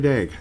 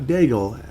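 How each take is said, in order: First: The name ends without an L sound. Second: The name ends with an L sound. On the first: The speaker calls it right. "I am saying it correctly" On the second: The speaker calls it wrong. "not Daigle"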